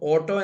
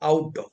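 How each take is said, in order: First: The first vowel is a plain 'oh' sound. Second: The first vowel is a gliding 'ow' sound. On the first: The speaker calls it wrong. "ഓട്ടോ എന്നല്ല" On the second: The speaker calls it right.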